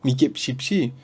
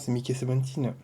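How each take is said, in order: First: The number is pronounced in Korean. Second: The number is pronounced in English. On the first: "Peut-être que ça parle aussi en coréen dans le film" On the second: "ça parle en anglais dedans. Donc logiquement"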